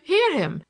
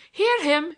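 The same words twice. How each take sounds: First: Higher and louder mock outcry, falling; teasing hear-him with a falling end; mock protest. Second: Higher and louder mock outcry; teasing hear-him with a rising end; mock protest. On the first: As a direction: land it with a falling teasing close. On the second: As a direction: cry it out in playful outrage, rising. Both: A narrator's reading. Larry mocking the priest.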